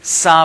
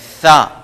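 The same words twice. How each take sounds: First: It begins with a plain s sound. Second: It does not begin with a plain s. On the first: The speaker calls it wrong. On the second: The speaker calls it right.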